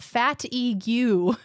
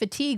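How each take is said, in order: First: The word is said as fat-e-gue. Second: The word is said as fa-teeg. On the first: "We were saying fat-e-gue" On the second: "The word was fatigue"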